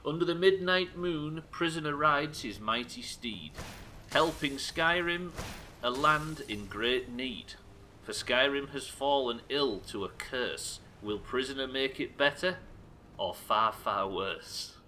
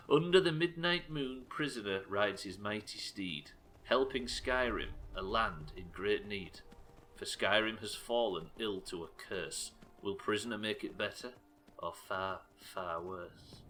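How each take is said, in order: First: Slow, grand recital of the verse; dramatic poem reading. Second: A hint of a creepy Hitchcock narrator; Hitchcock twang. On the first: Streamer reciting a chat poem, grand and slow. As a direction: declaim it like an epic trailer. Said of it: "reads viewer poem dramatically". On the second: Rereading the chat poem as Hitchcock, slow and lightly ominous. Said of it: "You've got to give it that Hitchcock twang". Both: Shown as a demonstration.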